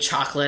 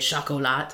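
First: The word is pronounced the plain English way. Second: The word is pronounced the French way. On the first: "instead of saying chocolate" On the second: "it's a French word, so I have to pronounce it a certain way"

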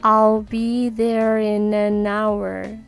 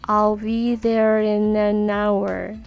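Both takes have the same delivery.

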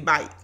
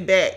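First: The word has a gliding 'ai' vowel. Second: The word has a short flat 'a' vowel. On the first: "as we say in the South. ... we say bike" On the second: "We don't say back"

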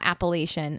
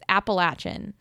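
First: The middle syllable sounds like 'lay'. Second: The middle syllable sounds like 'latch'. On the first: The speaker calls it wrong. "It is not Appalachian" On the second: The speaker calls it right. "like they're throwing an Appalachia"

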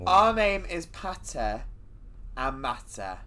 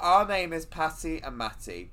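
First: It is said in a put-on voice. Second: It is said in her normal voice.

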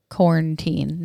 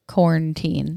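First: It is said the rural, country way. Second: The same.

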